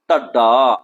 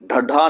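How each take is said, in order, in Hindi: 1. यह भारी ढंग से कहा गया है, वज़नदार लहजे के साथ। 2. यह सादे ढंग से कहा गया है, बिना भारीपन के। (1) "इसे भर के बोलना है" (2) "ढड्ढा नहीं"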